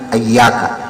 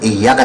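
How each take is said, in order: First: The word begins with an a vowel. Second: The word begins with an i vowel. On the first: "hamzahnya dibaca fathah" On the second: "bukan bukan iyyaka"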